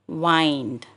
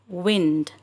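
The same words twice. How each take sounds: First: The word has a long vowel. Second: The word has a short vowel. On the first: The word is a verb meaning to twist and turn. "when it is used as a verb, it should be pronounced as wind" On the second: The word is a noun meaning moving air. "only when it is used as a noun, it has to be pronounced as wind"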